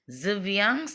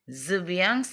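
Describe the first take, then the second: The two takes are said the same way.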